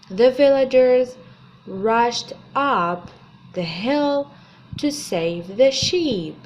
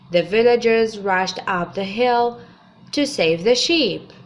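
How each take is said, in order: First: It is said slowly. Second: It is said at normal speed.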